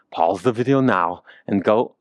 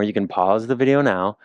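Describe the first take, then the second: First: A light hint of a Dutch accent imitating Wim Hof; Wim Hof impression. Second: Said in the usual way. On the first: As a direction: toss off a lightly voiced Dutch-accented coaching line. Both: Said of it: "I always wanna imitate Wim Hof".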